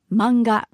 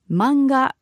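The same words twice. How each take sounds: First: It is said with a Japanese pronunciation. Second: It is said with a Japanese pronunciation.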